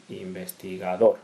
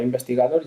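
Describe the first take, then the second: First: "investigador" pronunciado despacio, marcando la última sílaba, dor; acento al final. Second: Said in the usual way. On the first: Shown as a demonstration. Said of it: "lleva la sílaba tónica en". ("investigador" con la sílaba tónica final bien marcada)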